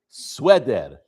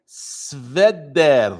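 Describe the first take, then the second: First: The letter after s is a w sound. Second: The letter after s is a v consonant. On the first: "it's pronounced as a w" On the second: "Read it as a v"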